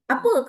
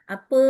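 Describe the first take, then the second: First: It is said with high, sharp pitch. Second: It is said low and lilting.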